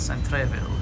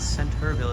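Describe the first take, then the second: First: The middle is said as spelled, R before E. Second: The middle is said the usual way, as 'center'.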